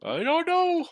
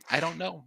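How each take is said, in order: First: High, drawn-out exasperated cry; exasperated shrug. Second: Said in the usual way. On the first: Real, not acted. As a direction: throw your hands up vocally at the word know.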